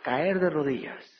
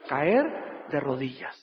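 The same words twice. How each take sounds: First: Caer de rodillas repeated more lightly, stress moved to de. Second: Caer de rodillas said slow and low, leaning on caer; slow solemn emphasis. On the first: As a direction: say Caer de rodillas again, easing off. (repite Caer de rodillas con menos peso, acento en de) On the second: (di Caer de rodillas lento y grave, marcando caer) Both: Shown as a demonstration.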